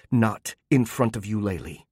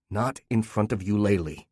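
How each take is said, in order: First: Said in the usual way. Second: Level, cold echo of the earlier plea; wife mocking her husband with his cruelty. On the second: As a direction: throw her own words back. Wife throws his words back.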